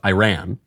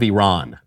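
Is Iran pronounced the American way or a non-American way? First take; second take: American; non-American. First: Iran is pronounced in the American way. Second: Iran is pronounced in a non-American way. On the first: The speaker calls it right. "I'm an American. I should pronounce it Iran" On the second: The speaker calls it wrong. "I did it again. I'm an American"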